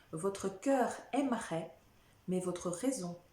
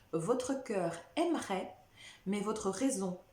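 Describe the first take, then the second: Both takes have the same delivery.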